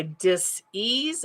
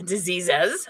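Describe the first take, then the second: First: "dis-ease" split in two, stress on "ease"; dis-ease pronunciation. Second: Said in the usual way. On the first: Shown as a demonstration. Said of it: "like D I S dash E A S E". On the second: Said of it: "not diseases".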